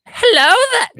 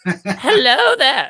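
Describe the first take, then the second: First: It is said in a voice like an old lady. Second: It is said in a more sinister, evil voice.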